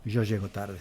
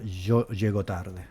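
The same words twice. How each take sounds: First: "Yo llego tarde" with a soft y sound, no sh; plain "yo llego" with a palatal y; standard pronunciation. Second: "yo llego tarde" with a slow "sh" sound for y and ll; Uruguay pronunciation. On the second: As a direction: drawl "yo" and "llego" with Rioplatense zh. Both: Shown as a demonstration. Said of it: "esto se pronuncia".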